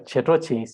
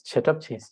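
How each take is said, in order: First: The first word ends in an 'o' vowel. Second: The first word ends in a 'p' sound. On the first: The speaker calls it wrong. "It's incorrect" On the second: The speaker calls it right. "So please pronounce it as tab"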